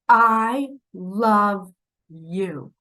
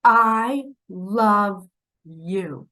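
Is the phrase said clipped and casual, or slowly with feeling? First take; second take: with feeling; with feeling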